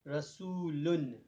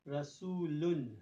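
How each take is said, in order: First: The word ends with an n sound. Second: The same.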